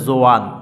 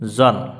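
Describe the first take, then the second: First: The vowel glides from 'o' into 'a' before n. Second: A single short vowel comes straight before n. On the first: The speaker calls it wrong. "এমনটি কিন্তু সঠিক হবে না, এটি ভুল।" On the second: The speaker calls it right. "জ মিলবে নুনের সাথে জন।"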